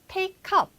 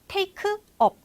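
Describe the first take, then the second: First: The two words are linked without a break. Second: The two words are said separately, with a break.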